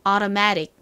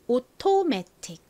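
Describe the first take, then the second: First: It has American sounds, a flapped T and 'uh' vowels. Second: It has Korean sounds, a clear T and 'o' vowels. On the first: "미국식 발음 따라해 볼까요?" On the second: "한국식으로 automatic이 됩니다"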